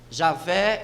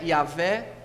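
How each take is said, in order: First: The name begins with a J sound. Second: The name begins with a Y sound.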